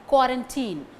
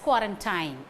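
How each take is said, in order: First: It is said with the standard dictionary pronunciation. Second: It is said the way Tamil news channels say it. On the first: "you can get the answer quarantine" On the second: "You would have come across this word in Tamil channels as quarantine"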